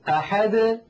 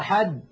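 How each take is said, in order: First: The final d is released with a bounce. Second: The final d stops abruptly without release. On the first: The speaker calls it right. "هكذا بالتباعد بين طرفي عضو النطق" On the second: The speaker calls it wrong. "يعني لا يقولون قل هو الله أحد، لا تفعل العرب ذلك"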